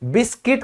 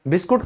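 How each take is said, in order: First: The second syllable has a short 'i' vowel, 'kit'. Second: The second syllable has an 'oo' vowel, 'koot'. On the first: The speaker calls it right. "इसको हम कहेंगे बिस्किट" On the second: The speaker calls it wrong. "English में बिस्कुट नहीं होता है भाई"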